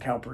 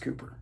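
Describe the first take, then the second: First: The first vowel sounds like 'cow'. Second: The first vowel sounds like 'coo'. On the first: The speaker calls it wrong. "I've just always been told it's not Cowper" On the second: The speaker calls it right. "it's Cooper"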